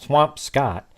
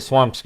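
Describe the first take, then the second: First: The last syllable is said like 'Scott'. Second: The last syllable is said like 'skit'. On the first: "I found a Swamp Scott" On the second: "you say swamp skit"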